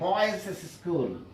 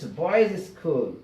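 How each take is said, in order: First: An extra 'iz' syllable is added after boys. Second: No extra syllable is added after boys. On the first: The speaker calls it wrong. "don't say" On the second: The speaker calls it right. "It is"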